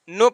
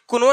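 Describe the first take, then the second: First: The K is silent; it begins with N. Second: A K sound is pronounced before the N. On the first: The speaker calls it right. "सिर्फ नो पढ़ेंगे" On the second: The speaker calls it wrong. "इसको कुनो नहीं पढ़ेंगे"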